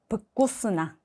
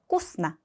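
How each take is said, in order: First: The word begins with a voiced v syllable. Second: The word begins with a voiceless f sound. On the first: The speaker calls it wrong. "앞에 브를 꼭 붙이세요" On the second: The speaker calls it right. "f 발음을 해주시면 됩니다"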